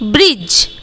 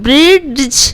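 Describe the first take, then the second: First: No d sound comes before the final j. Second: A clear d sound comes before the final j. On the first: The speaker calls it right. "डी को छोड़ देंगे" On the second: The speaker calls it wrong. "क्या आप ब्रिज को ब्रिड्ज ऐसे उच्चारण कर पाइएगा? No"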